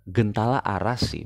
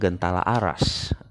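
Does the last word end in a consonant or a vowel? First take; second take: vowel; consonant. First: The last word ends with an 'ee' vowel. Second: The last word ends with an 's' consonant. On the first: The speaker calls it right. "lebih tepat adalah Gentala Arasi" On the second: The speaker calls it wrong. "bukan Gentala Aras"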